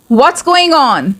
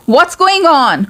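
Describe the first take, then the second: No difference in how they are said.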